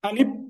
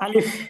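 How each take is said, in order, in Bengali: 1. শেষ ব্যঞ্জনটি একটি p ধ্বনি। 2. শেষ ব্যঞ্জনটি একটি f ধ্বনি। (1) "এখানে যে ফ আছে এটাকে প বলে ফেলি" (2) "এটাকে বলবো আমরা আলিফ"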